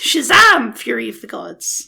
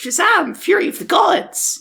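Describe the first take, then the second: First: Only the first word is loudly exclaimed. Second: Both parts of the title are loudly exclaimed.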